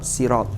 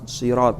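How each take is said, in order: First: The first s sound is light and plain. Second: The first s sound is heavy and emphatic. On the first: "ada yang tetap sirat" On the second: "ada yang mengucapkan dengan shad"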